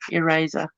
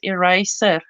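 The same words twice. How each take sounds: First: The middle consonant is a buzzing Z sound. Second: The middle consonant is a hissing S sound. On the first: The speaker calls it right. "It's supposed to be a Z" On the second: The speaker calls it wrong. "How would you pronounce it with an S?"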